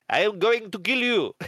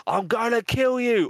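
First: Heavy mock French accent, pitched high; hammed-up Frenchman's threat, every word spelled out; Peter. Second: High-pitched mock threat; put-on threatening voice, pitched way up; hammed-up death threat in casual wording; Peter. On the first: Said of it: "in his heavy French accent". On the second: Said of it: "Peter was saying".

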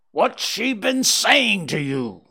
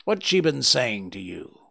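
First: Slow, higher, louder furious demand; furious scream. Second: Said in the usual way. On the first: A narrator's reading. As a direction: scream it at Holmes in rage. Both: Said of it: "screamed the old man furiously".

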